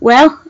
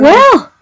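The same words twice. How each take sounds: First: It sounds like a friendly greeting. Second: It sounds like enthusiastic praise.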